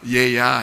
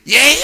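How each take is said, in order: First: It is said gently and softly. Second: It is said harshly and sharply.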